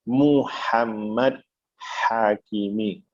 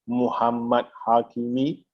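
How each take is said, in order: First: The h sounds are harsh and breathy. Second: The h sounds are soft and plain. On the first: The speaker calls it right. "Muhammad ha pedas, Hakimi juga pedas" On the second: The speaker calls it wrong. "itu salah dari segi bacaan"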